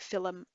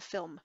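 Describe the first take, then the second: First: A vowel sound separates the l and m. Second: The l and m are said together. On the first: "you would hear an Irish person say" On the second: "instead of"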